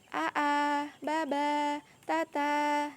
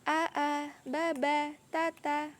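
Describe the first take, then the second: First: The syllable endings are swung and drawn out. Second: The syllable endings are short and quick. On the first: The speaker calls it wrong. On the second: The speaker calls it right.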